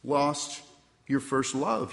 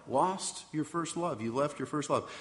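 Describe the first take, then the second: First: "lost" set apart by a pause, then "your first love" rising; pauses between words. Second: Soft reflective repeat. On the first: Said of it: "I have this against you". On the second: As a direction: echo the words "Lost your first love" quietly to himself. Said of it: "And what in the world is that about?". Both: Acted.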